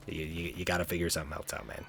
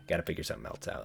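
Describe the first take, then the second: First: Said in the usual way. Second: Soft whisper, much lower and quieter; whispered aside. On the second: Pretend. Vlogger repeats advice to kids as a hushed whisper. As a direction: breathe it as a mock secret.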